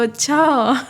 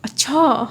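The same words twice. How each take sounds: First: अच्छा with mild shocked fall; a hint of shock on अच्छा. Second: अच्छा snapped in mild anger; a touch of an angry अच्छा. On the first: Teacher shows shocked अच्छा after an accident. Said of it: "शौक में, शौक वाला अच्छा।". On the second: Teacher shows an angry अच्छा for students. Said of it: "जो गुस्से से बोलो तो". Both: Shown as a demonstration.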